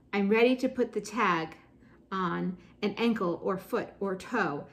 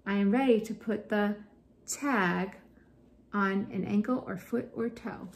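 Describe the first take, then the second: First: Said in the usual way. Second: "tag" set alone between two pauses; pauses for emphasis. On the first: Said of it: "one word on a line to slow the reader down". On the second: Shown as a demonstration. Teacher demonstrates one word per line, "tag" isolated by pauses. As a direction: stop before "tag" and again after it. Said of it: "to slow the reader down, to emphasize different words".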